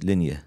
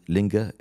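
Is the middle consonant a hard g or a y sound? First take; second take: y sound; hard g. First: The middle consonant is a y sound. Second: The middle consonant is a hard g sound. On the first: This is the Arabic way of saying it. "the way we pronounce it" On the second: This is the local Persian name. "they call it Linga in Persian"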